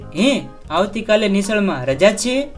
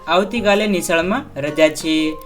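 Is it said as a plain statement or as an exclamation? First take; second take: exclamation; statement. First: It is said as a surprised exclamation. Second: It is said as a plain statement.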